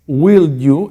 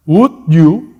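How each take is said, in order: First: Less polite. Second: Polite. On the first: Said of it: "es menos cortés". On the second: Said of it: "es más cortés". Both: Shown as a demonstration.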